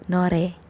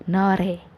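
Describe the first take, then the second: No difference in how they are said.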